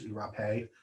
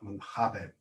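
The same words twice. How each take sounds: First: The final E is sounded as a second syllable. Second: It is said with a Brazilian Portuguese accent. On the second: "Or the Brazilians pronounce it"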